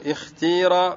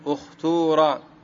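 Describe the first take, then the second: First: The vowel after the t is a front i. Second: The vowel after the t is a rounded u. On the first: "والكسر" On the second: "الضم"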